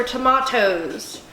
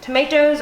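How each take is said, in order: First: "tomatoes" with an AH in the middle; alternative pronunciation. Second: Said in the usual way. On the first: Shown as a demonstration. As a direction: say "tomatoes" as tuh-MAH-toes. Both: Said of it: "Does anybody really say tomatoes".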